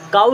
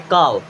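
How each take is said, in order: First: The word ends in an 'oo' glide. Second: The word ends in a 'v'-like sound. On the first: The speaker calls it wrong. "काउ नहीं बोलते" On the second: The speaker calls it right.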